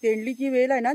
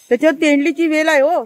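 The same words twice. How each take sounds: First: Said in the usual way. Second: Loud call across the garden; calling out a warning. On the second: Real, not acted. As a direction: raise your voice to warn him. Warning the man picking flowers. (मोठ्याने हाक मारून सावध करणे)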